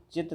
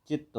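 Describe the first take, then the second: First: चित्त as chit, with a short single t; wrong form. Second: चित्त as chitt, with a doubled t; correct form. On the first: Teacher rejects the misspelt word for students, wrong form. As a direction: say चित्त higher, cut to a single t. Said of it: "चित्त नहीं". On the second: Teacher gives students the correction, correct form. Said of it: "चित्त होगा". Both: Shown as a demonstration.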